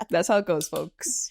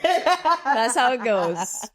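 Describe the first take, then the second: First: Said in the usual way. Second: Slow, stretched sing-song line; slow mock-wise delivery; drawn out. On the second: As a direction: drag each word out like a punchline.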